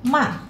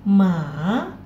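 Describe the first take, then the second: First: The pitch falls sharply from high to low. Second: The pitch dips down and then rises. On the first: "yang keempat turun saja agak cepat" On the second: "yang ketiga turun kemudian naik"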